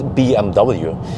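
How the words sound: The letters are said with English letter names. "the English way"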